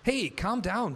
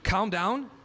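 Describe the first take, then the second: First: Sharp, higher retold snap at husband; snapping back. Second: Higher and louder, rising in disbelief; incredulous retort. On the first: Wife snaps back at her frustrated husband, sharp. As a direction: cut him off with a sharp hey. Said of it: "Betty snapped back". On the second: Retold or imitated. Father throws calm down back at wife, incredulous. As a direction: throw her words back at her. Retorting in heated marital argument.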